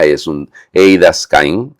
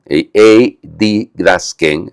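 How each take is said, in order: First: Eidaskain drawn out slowly, syllable by syllable; slow Greek word. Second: Eididasken said very slowly and carefully, correcting himself; corrected Greek word. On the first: Priest sounding out a Greek word for listeners, slowly. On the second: Priest correcting his Greek pronunciation, very slowly. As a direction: repronounce it as eididasken, deliberately slow. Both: Shown as a demonstration.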